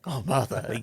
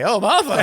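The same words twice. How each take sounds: First: It is whispered softly. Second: It is spoken aloud, not whispered.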